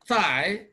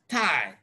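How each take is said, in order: First: It begins with a soft th sound. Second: It begins with a hard t sound. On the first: The speaker calls it right. "want to produce this sound" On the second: The speaker calls it wrong. "they will produce tie"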